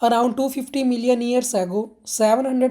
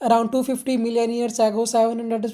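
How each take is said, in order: First: It is read with pauses, stretched and stressed words. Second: It is read straight through without pauses or stress. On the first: The speaker calls it right. "आपके pauses भी आने चाहिए, words पे stretch भी होना चाहिए, stress भी आना चाहिए" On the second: The speaker calls it wrong. "अगर आप डायरेक्ट जस्ट रीड कर रहे हो"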